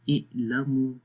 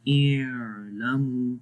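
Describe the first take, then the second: First: اعلموا with the ع shut off abruptly; ain cut off short. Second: اعلموا with the ع dragged out very long and slow; ain overstretched. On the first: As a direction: close the ع sound too quickly in اعلموا. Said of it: "یہ بھی غلط ہوگا". (اعلموا میں عین کی آواز بند کر کے) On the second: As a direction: stretch the ع in اعلموا far too long. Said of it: "تو وہ بھی غلط ہے". (اعلموا میں عین کو بہت لمبا کھینچ کر) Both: Shown as a demonstration.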